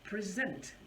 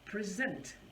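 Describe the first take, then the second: First: The stress is on the second syllable. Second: The stress is on the second syllable.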